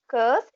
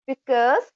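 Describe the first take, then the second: First: The first syllable is dropped from the word. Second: The word is said with both syllables.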